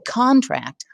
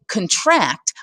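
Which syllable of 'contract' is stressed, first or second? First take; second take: first; second. First: The stress is on the first syllable. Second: The stress is on the second syllable. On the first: It names a legally binding agreement. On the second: It means squeezing something smaller.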